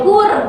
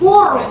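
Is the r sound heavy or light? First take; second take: light; heavy. First: The r is light, without the voice raised. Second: The r is heavy, with the voice raised. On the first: The speaker calls it wrong. "nggak boleh kur" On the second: The speaker calls it right. "Jadi harus kur"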